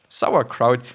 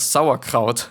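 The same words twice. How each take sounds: First: It is said with an English pronunciation. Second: It is said with a German pronunciation. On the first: "it is like really cute" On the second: "it is like such a tough language"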